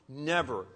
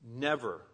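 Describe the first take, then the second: The two takes are said the same way.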